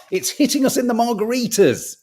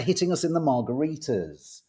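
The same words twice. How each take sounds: First: "margaritas" punchline read higher and louder with relish, stress on "hitting"; hammed-up headline delivery, leaning hard on "hitting"; relishing the pun on "margaritas"; gleeful tabloid quote. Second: Said in the usual way. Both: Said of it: "To quote the Daily Star".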